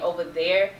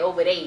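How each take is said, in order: First: The word 'there' keeps its final r sound. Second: The word 'there' drops the r, sounding like 'they'. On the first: "instead of saying" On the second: "they would say"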